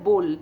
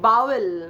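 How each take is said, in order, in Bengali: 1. শব্দটি এক অক্ষরে বলা হয়। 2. শব্দটি দুই অক্ষরে বলা হয়। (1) "ওটা উচ্চারণটা হয় বোল" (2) "বাওয়েল বলেছিলিস"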